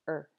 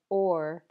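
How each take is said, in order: First: The word is said with a reduced schwa vowel. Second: The word is said with a full clear vowel.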